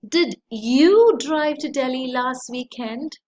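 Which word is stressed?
you. The stress is on "you".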